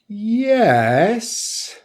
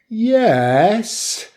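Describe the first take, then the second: Both takes have the same delivery.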